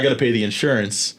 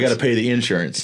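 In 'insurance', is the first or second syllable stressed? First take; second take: second; first. First: The stress falls on the second syllable. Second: The stress falls on the first syllable. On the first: This is how others say it. "not like" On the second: This is how the speaker says it. "I say insurance, like a hard in"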